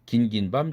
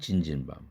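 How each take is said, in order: First: The first two syllables start with a g sound. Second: The first two syllables start with a j sound. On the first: The speaker calls it right. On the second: The speaker calls it wrong.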